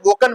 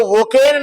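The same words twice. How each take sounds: First: वोकन with a short schwa before n; correct pronunciation. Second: वोकेन with a full "ay" in the last syllable; mispronunciation. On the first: Teacher shows how to read woken, वोकन with reduced second vowel. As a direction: say वोकन as "wo-kun". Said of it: "वोकन पढ़ना". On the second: Teacher warns against reading woken by spelling, वोकेन with long second vowel. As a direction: say वोकेन as "wo-kayn". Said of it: "उसको वोकेन नहीं पढ़ना है". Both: Shown as a demonstration.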